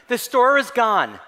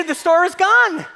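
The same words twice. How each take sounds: First: Said in the usual way. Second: Higher, gloating announcement; gleeful. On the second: Shown as a demonstration. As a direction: crow it out in triumph.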